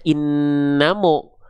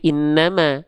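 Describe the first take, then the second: First: The m is followed by a thick o vowel. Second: The m is followed by a thin a vowel. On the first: The speaker calls it wrong. "mim kan gak dibaca innamo" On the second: The speaker calls it right. "tapi innama"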